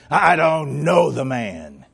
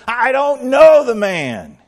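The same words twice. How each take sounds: First: Sworn denial. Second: Higher, louder and slow, biting off each word; emphatic denial. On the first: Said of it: "call down curses on himself". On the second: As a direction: deny it hard, slowly and loud. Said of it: "denied it again with an oath". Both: Acted.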